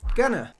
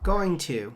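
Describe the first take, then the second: First: The two words are blended into one reduced word. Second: The two words are said separately and fully. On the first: "we mix them together and they become gonna" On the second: "You probably learned this as two different words"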